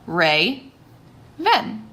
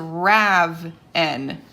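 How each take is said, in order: First: The first vowel is long, like 'ray'. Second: The first vowel is short, like 'rav'. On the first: The syllable is cut after the vowel. "with an open sound. Open long sound" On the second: The syllable is cut after the consonant. "I would pronounce that as Rav-en"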